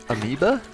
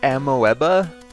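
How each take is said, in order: First: It is said with its usual spoken pronunciation. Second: It is sounded out the way it is spelled. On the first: This is how the word is actually pronounced. "but it's amoeba? I'm pretty sure that's how you pronounce it" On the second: This is how the written word looks. "It looks like amoeba"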